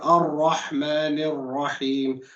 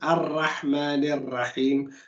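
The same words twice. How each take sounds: First: The R sound is heavy and full. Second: The R sound is light and thin. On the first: The speaker calls it right. "you should read it heavy" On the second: The speaker calls it wrong. "you didn't make it heavy"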